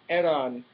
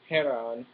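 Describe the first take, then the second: First: The name starts directly with a vowel sound. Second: The name starts with a breathy h sound. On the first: The speaker calls it right. "you don't pronounce the H in Spanish name, so it's Eran" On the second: The speaker calls it wrong. "not Heran"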